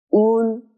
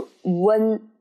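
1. 重音落在开头的 u 音上。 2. 重音落在最后的 n 音上。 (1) "是在前面的乌，不是在后面的恩" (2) "不是温"

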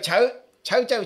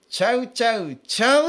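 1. 音程はずっと同じです。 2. 音程は上がったり下がったりします。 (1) "いよいよ抑揚がない。ベターっていう" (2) "こういう抑揚をつける"

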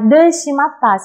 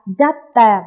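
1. Cụm từ này được nói ở dạng đầy đủ. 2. Cụm từ này được rút gọn thành một từ ngắn.

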